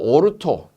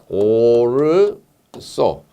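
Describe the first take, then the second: First: The last syllable starts with a t sound. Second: The last syllable starts with an s sound. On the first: "발음을 오르토라고도 하고" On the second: "오르소라고도 합니다. 둘 다 맞습니다"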